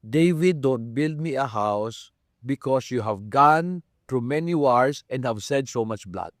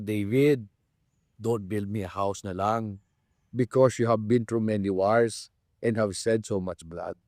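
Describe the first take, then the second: First: It is said in a harsh tone. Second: It is said in a kind tone.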